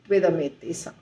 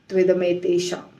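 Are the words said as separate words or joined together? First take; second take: joined; joined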